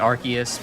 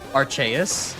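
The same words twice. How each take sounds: First: The name is said in a plain English way. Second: The name is said in an Italian-style way. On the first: "I guess it's supposed to be Arceus, but that just sounds that sounds terrible" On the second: "going full Italian pronouncing it"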